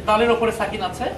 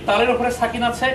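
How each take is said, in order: The two takes are said the same way.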